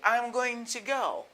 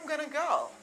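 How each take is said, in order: First: Going to is pronounced fully as two words. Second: Going to is reduced to one short word. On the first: "instead of saying I'm going to go" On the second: "you can say I'm gonna go"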